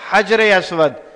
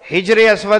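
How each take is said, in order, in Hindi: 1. पहला शब्द 'a' स्वर से शुरू होता है। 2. पहला शब्द 'i' स्वर से शुरू होता है।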